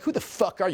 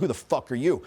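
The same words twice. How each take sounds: First: Higher-pitched mock challenge; imitated girl. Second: Said in the usual way. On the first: Girl challenging the man, imitated indignation. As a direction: mimic her indignant question. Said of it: "She's like". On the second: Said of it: "I'm like".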